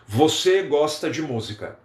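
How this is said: It is said with statement intonation. It states a fact. "Isso é uma afirmação"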